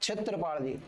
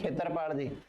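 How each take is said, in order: First: The name begins with a ksh cluster sound. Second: The name begins with a plain kh sound. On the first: This is the standard form of the name. "क्षेत्र होता है वैसे" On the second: This is how people locally say the name. "और क्षेत्रपाल जी भी नहीं, खेतरपाल जी"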